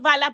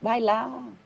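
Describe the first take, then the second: First: It is said in a harsh, commanding tone. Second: It is said in a soft, gentle voice.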